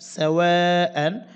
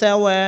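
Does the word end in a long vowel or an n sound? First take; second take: n sound; long vowel. First: The word ends with an n sound. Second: The word ends with a lengthened vowel. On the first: "হামজা দুই জবর আন" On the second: "অক্ফ করলে হামজা হামজাতে কিন্তু টানতে হবে এক আলিফ"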